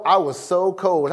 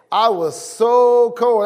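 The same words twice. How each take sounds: First: Said in the usual way. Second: "so" stretched, higher and louder; stress on so. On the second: Shown as a demonstration. Preacher showing how cold it was, stress on "so". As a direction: lean hard on "so" to show how cold. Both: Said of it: "an emphasis or a degree that I placed upon how cold".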